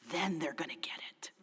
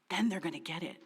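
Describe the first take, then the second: First: Hushed, breathy whisper; whispered hope. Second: Said in the usual way. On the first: Retold or imitated. Pastor whispering her anxious hope to herself. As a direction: whisper it like a secret wish. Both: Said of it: "Because I always felt like".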